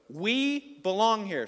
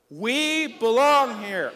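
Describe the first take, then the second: First: Raised, drawn-out call; loud call to echo. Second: Booming, drawn-out shout; really loud shout. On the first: Pastor cues congregation to echo, loud call. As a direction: lead the crowd, loud and slow. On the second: Pastor urges congregation to echo louder, full shout. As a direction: belt it out slowly, high and loud. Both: Shown as a demonstration. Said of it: "say it really loud".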